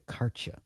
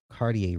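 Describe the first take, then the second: First: The name is clipped, sounding like 'Karcha'. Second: The name is said in a plain, everyday way.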